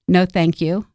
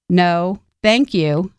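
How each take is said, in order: First: The voice is soft and mild. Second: The voice is firmer and louder. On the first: A polite first refusal. "escalating your tone and strengthening your voice" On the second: A more insistent refusal. "escalating your tone and strengthening your voice"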